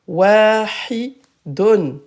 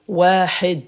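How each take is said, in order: First: The word ends with the full 'dun' syllable. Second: The word ends on a bare 'd' sound. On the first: The word is said in the flow of speech. "Donc ça c'est wahidun" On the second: The speaker stops at the end of the phrase. "Donc à l'arrêt, hop, devient wahid"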